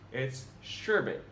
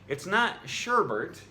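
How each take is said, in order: First: There is no R sound in the second syllable. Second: An R sound is added in the second syllable. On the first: The speaker calls it right. "When said correctly, it rhymes with kerbet" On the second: The speaker calls it wrong. "You've probably been adding an R here"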